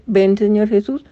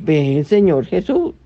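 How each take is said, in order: First: Said in the usual way. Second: Prayerful. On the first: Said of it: "¿Y por qué estamos diciendo". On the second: Shown as a demonstration. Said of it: "¿qué es lo que uno dice?".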